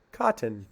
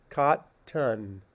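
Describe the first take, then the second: First: "Cotton" said quick and natural, unstressed schwa. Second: "Cotton" said first fully, second syllable kept; "Cotton" with the tt clearly aspirated, kah-tun; cotton with a schwa. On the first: Teacher to class, natural schwa take. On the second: Teacher to class, first careful take. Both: Shown as a demonstration. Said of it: "more of a schwa sound".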